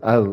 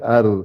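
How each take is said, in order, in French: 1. Le r est léger, pointe de la langue près des dents. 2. Le r est léger, pointe de la langue près des dents.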